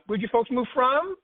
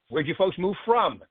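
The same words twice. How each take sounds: First: The voice rises at the end. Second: The voice falls at the end.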